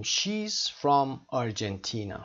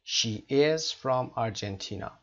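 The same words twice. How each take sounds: First: "she's" said as one syllable, slow model sentence; contracted she's. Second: "She is" as two separate words, slowly; full form she is. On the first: Teacher models the short form for students, contracted she's. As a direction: run "she is" together into "she's". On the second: Teacher unpacks the contraction for students, full she is. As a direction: give "is" its own full syllable after "She". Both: Shown as a demonstration. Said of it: "حالت مخفف she is هست".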